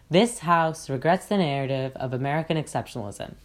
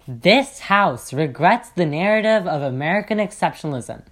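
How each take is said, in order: First: It is said in a flat monotone. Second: It is said with strong passion.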